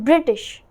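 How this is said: American accent, with the t sound pronounced. "But in American, British, British, you say it like that"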